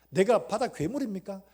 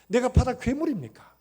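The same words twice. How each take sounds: First: Loud pleading question; lamenting question. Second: Much louder, higher anguished question; anguished outcry. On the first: Job asking God if he is a sea monster, loud lament. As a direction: ask God in anguish. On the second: Job wailing at God in his suffering, full anguished outcry. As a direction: wail it up to God. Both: Retold or imitated. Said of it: "그렇게 탄식하면서".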